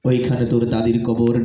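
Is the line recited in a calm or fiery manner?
calm. It is recited in a calm, gentle manner. A decent ordinary person is reciting it. "একজন ভালো লোক। সে এসে কবিতা আবৃত্তি করতেছে এভাবে"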